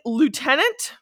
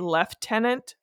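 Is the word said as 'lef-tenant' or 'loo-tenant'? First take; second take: loo-tenant; lef-tenant. First: It is said the American way, loo-tenant. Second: It is said the Canadian way, lef-tenant.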